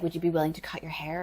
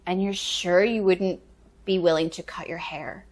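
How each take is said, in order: First: Quick, softer imitated question; retold casual request. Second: Retold second request. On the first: Director asking actor about a haircut, quick soft request. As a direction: ask it quickly and quietly, in passing. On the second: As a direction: draw the question out, checking once more. Director asks again before she leaves.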